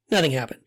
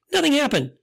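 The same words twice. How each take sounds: First: Said in the usual way. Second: "nothing" jumps high and hits hard, then falls; emphatic nothing. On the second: Real, not acted. Prayer over the girl fails.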